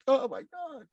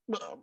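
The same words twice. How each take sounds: First: High, tearful cry; retold crying. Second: Breathless hushed whisper; stunned whisper. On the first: Told he is a real superhero, voice breaks crying. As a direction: let it break into tears, pitched way up. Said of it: "I start crying". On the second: Retold or imitated. Festival guest hears he is a real hero, whispers. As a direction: whisper it in disbelief. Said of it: "I was just like".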